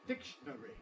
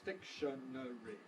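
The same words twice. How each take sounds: First: The second and third syllables merge into one. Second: All four syllables are said separately. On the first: "compress between the second and third syllables" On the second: "If everything is present, we have four syllables"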